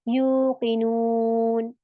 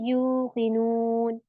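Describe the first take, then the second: The two takes are said the same way.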